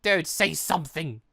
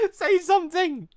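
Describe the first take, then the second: First: Said in the usual way. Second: High, pleading shout; desperate yell. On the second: Acted. Pleading with Ty, a high desperate shout. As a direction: demand an answer, voice pitched up.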